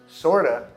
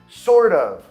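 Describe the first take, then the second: First: Of reduces to a and joins sort. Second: Of is said fully as its own word.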